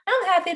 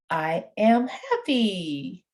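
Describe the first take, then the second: First: It is said quickly, running the words together. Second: It is said slowly and clearly enunciated. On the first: It is how adults talk among themselves. The speaker calls it wrong. "Not, I'm happy, da, da, da, you know, like we're going on" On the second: It is easier for a child to understand. The speaker calls it right. "speak a little slower than you would to your friends because you want to enunciate"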